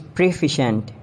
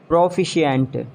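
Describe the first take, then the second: First: "proficient" as pruh-FISH-unt; three syllables in "proficient"; British pronunciation. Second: "Proficient" as PRO-fi-shee-ant; extra syllable in "Proficient"; mispronounced proficient. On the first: Shown as a demonstration. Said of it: "It's proficient". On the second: Acted. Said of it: "you have to correct me".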